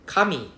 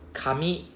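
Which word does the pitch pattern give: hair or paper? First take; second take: hair; paper. First: Said with the pitch pattern of the word hair. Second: Said with the pitch pattern of the word paper. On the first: The word means hair. "Kami is hair" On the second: The word means paper. "Kami is paper"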